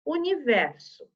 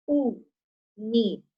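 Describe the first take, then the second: First: Said in the usual way. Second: "Universo" slowly split u, ni, ver, so; syllable by syllable. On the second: Shown as a demonstration. ("Universo" bem devagar, separando as sílabas) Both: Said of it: "Eu tenho que ouvir esse som".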